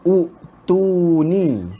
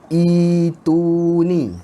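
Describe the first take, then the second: First: The word begins with a rounded u vowel. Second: The word begins with an unrounded i vowel. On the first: The speaker calls it wrong. "hamzah wasal ni kita baca baris depan, maka kita kena baca utuni" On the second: The speaker calls it right. "Dia tak baca utuni. Dia baca macam ni ya"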